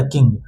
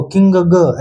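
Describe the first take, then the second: First: "किंग" said as one smooth syllable with nasal ng and a light g, lower and falling; correct blended reading. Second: "किंग ग" with an extra separate ग sound after किंग; wrong split reading. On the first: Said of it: "सीधे इसका उच्चारण क्या हो गया?". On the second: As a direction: break "किंग ग" into king plus a loose ग syllable. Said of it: "ऐसे करके नहीं पढ़ना है". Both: Shown as a demonstration.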